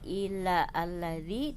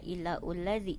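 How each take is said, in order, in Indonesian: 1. Setelah illa ada vokal a yang terpisah. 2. Setelah illa ada vokal u yang terpisah. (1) "tidak illa alladzi" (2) "tidak illa ulladzi"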